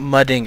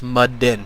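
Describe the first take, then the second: First: The ending is said with a full g sound. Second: The ending is said without the g sound. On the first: "It's not mudding" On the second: "you drop the G off"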